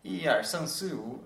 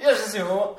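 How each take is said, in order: First: It is said slowly. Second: It is said fast.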